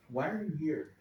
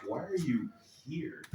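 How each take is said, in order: First: Said in the usual way. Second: "are" leaned on with a sneering upward lilt; quiet mock-British incredulous question; disdainful why are you here. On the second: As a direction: ask "Why are you here?" as if nobody sane would come, stressing "are" with a rise. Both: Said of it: "Or more like".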